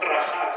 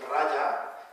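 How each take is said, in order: First: The middle consonant is a rasping throat sound. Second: The middle consonant sounds like a y. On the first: This is how it is said locally. The speaker calls it wrong. "no un raja como decimos aquí" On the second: This is the original Sanskrit sound. The speaker calls it right. "esto es un raya"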